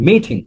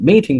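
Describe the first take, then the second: The two takes are said the same way.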